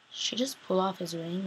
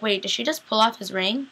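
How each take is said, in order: First: Much softer, lower repeat of the question; stunned murmur. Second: Rising, stunned question; startled disbelief. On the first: Viewer repeating it to herself in stunned quiet. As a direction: repeat it to yourself, dropping away in shock. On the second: Viewer reacting to Meredith taking the ring, startled. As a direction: ask it as if you can't believe your eyes. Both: Retold or imitated. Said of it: "and I'm like".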